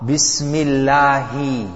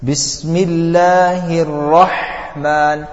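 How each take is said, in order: First: "Bismillahi" with a plain h sound; "Bismillahi" said slowly, h barely voiced; light Ha in Bismillahi. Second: Slow chanted "Bismillahir Rahman" with a heavy throat Ha; throaty Ha. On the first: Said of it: "that's a small Ha". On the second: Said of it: "the difference between the Ha and the Ha is the throat". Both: Shown as a demonstration.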